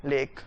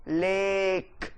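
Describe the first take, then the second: First: Said in the usual way. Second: लेक with the vowel held long and lifted; stretched stress. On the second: Shown as a demonstration. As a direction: draw out लेक like a full toss hanging in the air. (लेक को खींचकर, लंबा ज़ोर देकर) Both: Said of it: "सही तरह बोलें इसको".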